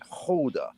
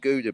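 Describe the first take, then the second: First: It begins with a throaty H-like sound. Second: It begins with a hard G sound. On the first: The speaker calls it right. "they don't have G's" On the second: The speaker calls it wrong.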